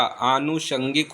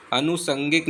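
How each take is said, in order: First: आनुषंगिक slow, with long aa and sh; correct sounds. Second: अनुसंगिक with short first a and plain s; wrong sounds. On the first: Teacher giving the correction, आनुषंगिक with aa and sh. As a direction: say "aanu-shangik" for आनुषंगिक. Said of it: "आनुषंगिक होता है". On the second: Teacher showing the mistake, अनुसंगिक with s, not sh. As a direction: say "anu-sangik" for अनुसंगिक. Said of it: "अनुसंगिक नहीं होता". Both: Shown as a demonstration.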